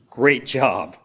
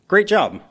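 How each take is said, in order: First: It is said sarcastically, meaning the opposite. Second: It is said sincerely, as real praise.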